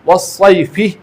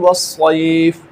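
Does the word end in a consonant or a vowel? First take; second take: vowel; consonant. First: The word ends with a short final i vowel. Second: The word ends on a consonant, without a final vowel. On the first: The reader continues without stopping. "अब ये वस्सैफ़ि है ना, फ़ा के नीचे ज़ेर" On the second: The reader stops at this word. "अगर आप इसमें रुकेंगे तो उस सूरत में यहाँ पर तीन अलिफ के मिक़दार में"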